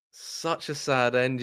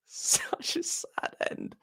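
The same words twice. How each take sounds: First: Said in the usual way. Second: A very high, breathless, laughing mock whimper. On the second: Shown as a demonstration. Fan mocking his own grief after the defeat, in a mock whimper. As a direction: whimper it as if pretending to cry.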